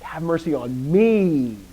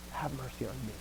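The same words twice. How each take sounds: First: ME drawn out long, high and loud; exaggerated stress on ME, falling at the end; emphatic ME. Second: Soft plea with ME left unstressed; no weight at all on ME; de-emphasized ME. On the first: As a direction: lean hard on a stretched, loud "me". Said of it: "not like". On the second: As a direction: say "me" quickly and softly, throwing it away. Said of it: "he's actually de-emphasizing himself". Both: Shown as a demonstration.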